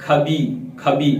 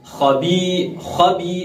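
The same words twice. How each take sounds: First: खबी with a plain aspirated k, as in खाना; thin wrong khaa. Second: खबी with a thick fricative kh from the throat; full khaa. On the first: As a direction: show the mistake, thin k-h in खबी. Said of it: "खा को बारीक पढ़ देंगे". (खबी में खाना वाला बारीक खा) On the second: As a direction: demonstrate खबी with heavy, raspy Arabic kh. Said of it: "हम खा को पढ़ते हैं". (खबी का खा पुर, हलक से) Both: Shown as a demonstration.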